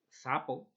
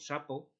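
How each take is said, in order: First: The first sound is a th. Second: The first sound is an s.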